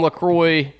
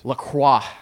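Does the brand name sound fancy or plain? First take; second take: plain; fancy. First: The name is said the plain, everyday way. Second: The name is said a fancier, pretentious way. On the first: This is the normal way to say the name. The speaker calls it right. "That is how that is fucking pronounced" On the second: The speaker is trying to sound sophisticated. The speaker calls it wrong. "you're just a pretentious asshole"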